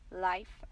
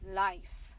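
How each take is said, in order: First: The vowel is said with a short sound. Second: The vowel is said with a long sound. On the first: "we can also use the short vowel sound" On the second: "let's try first the long sound"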